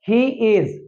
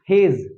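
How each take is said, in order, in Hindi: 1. यह दो पूरे शब्दों की तरह बोला जाता है। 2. यह एक संकुचित अक्षर की तरह बोला जाता है।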